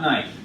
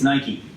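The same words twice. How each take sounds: First: The name is said a non-American way. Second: The name is said the American way. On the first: This is how others were taught to say it. The speaker calls it wrong. "It's not Nike. You've been taught wrong" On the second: This is how the brand's home country says it. The speaker calls it right. "As an American, and this is an American brand, it's Nike"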